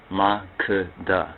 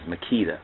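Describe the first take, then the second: First: Makeda said slowly as MAH-kuh-duh; Makeda as a measured MAH-kuh-duh; proper pronunciation. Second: Makeda said as muh-KEE-duh; Makeda with KEE in the middle; alternative pronunciation. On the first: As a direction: stress the first syllable of Makeda, each syllable separate. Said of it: "that's the proper pronunciation". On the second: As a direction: stress the middle syllable of Makeda, with a long EE. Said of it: "some would pronounce the name as". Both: Shown as a demonstration.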